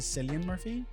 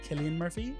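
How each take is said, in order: First: The name is pronounced the Americanized way. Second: The name is pronounced the original way. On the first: This is how Hollywood changed the name. The speaker calls it wrong. "Americanized into Cillian Murphy" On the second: This is how the name is properly said. The speaker calls it right. "the correct pronunciation is Cillian Murphy"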